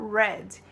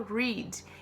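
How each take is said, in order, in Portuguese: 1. Usa a pronúncia do passado. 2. Usa a pronúncia do presente. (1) "quando a gente está dizendo no passado, a gente fala read" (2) "quando a gente está falando no presente, a gente fala read"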